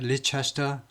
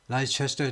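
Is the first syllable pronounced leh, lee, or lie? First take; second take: lee; lie. First: The first syllable sounds like lee, four syllables. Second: The first syllable sounds like lie, four syllables. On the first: "리도 아니고" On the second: "라이도 아니고"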